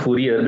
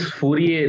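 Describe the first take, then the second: First: The final r is pronounced. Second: The final r is silent. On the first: The speaker calls it wrong. "not Fourier" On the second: The speaker calls it right. "it's Fourier ... so the R is silent"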